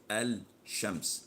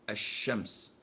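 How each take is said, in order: First: The L is clearly heard before the sh. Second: The L is silent and the sh doubled. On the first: The speaker calls it wrong. "We don't say" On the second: The speaker calls it right. "as in the word"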